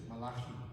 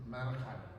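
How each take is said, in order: First: The name is said with Middle Eastern pronunciation. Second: The name is said with American pronunciation. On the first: "in Middle Eastern pronunciation is Malachi" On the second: "The Americans say Malachi"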